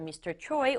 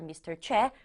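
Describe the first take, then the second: First: The name is said with an English-style pronunciation. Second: The name is said with a Korean pronunciation.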